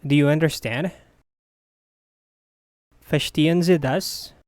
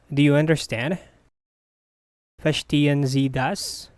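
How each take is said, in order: Both takes have the same delivery.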